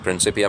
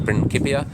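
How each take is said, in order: First: It is pronounced the English way. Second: It is pronounced the Latin way. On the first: "I pr- prefer the anglicized pronunciation" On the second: "the Latin original Latin pronunciation might be"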